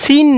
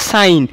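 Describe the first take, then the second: First: It is said with a short i vowel. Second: It is said with a long ai vowel. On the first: The speaker calls it wrong. "এটা কিন্তু আবার সিন না" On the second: The speaker calls it right. "কিন্তু এটা কিন্তু সাইন"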